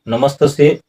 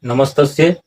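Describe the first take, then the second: No difference in how they are said.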